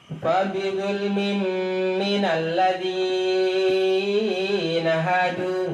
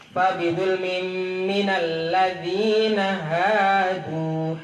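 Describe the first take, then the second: First: The vowel in ladzi is drawn out too long. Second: The vowel in ladzi has normal two-beat length. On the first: The speaker calls it wrong. "enggak boleh, salah" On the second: The speaker calls it right. "Dua harokat atau satu alif. Enggak boleh lebih"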